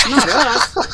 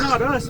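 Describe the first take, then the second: First: High, loud and sharp. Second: High-pitched repeat. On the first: Insisting millennials aren't lazy. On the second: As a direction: repeat it high, without the punch. Repeats the denial. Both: Acted.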